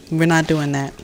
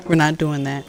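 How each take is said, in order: Both takes have the same delivery.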